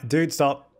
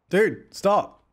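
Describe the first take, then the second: First: Said in the usual way. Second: Exasperated repeat. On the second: Real, not acted. Repeats when ignored.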